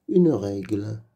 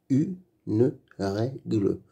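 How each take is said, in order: First: Said in the usual way. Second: Une règle slowly split into u-ne-rè-gle; slow beginner's decoding of "Une règle", final e voiced; syllable by syllable. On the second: Shown as a demonstration. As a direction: sound out "Une règle" with gaps between syllables. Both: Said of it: "Lis les mots".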